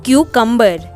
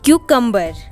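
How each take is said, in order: No difference in how they are said.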